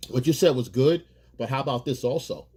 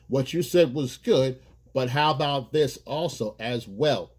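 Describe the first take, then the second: First: Said in the usual way. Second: Slower, measured "what you said was good"; slow, deliberate suggestion. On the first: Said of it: "that's how you add that up". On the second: Shown as a demonstration. Man slowly, deliberately adding his idea to hers. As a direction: lay it out slowly and calmly. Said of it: "you bring it in".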